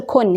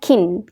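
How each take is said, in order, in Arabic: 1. حرف العلة ليس كسرة قصيرة. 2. حرف العلة كسرة قصيرة. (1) "وما تقولش كن" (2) "هي اسمها كن. كن اكسرها كأنها كسرة كده"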